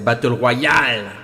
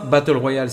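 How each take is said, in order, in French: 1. Les mots sont prononcés de façon très exagérée. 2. Les mots sont prononcés de façon simple, normale. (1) "il faut vraiment abuser sur la prononciation des mots" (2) "c'est pas Battle Royale"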